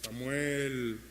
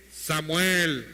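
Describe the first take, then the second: First: Low, soft, drawn-out call in the night; voice of God. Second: Low, drawn-out call, at full voice; voice of God. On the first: God calls sleeping young Samuel at night, low, soft calling voice. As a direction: call the name slowly, low and hushed. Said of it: "una voz en la noche que le decía". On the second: God calls Samuel once more in bed, firm low calling voice. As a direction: call the name out long and low. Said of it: "la voz de Dios que le dice". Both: Acted.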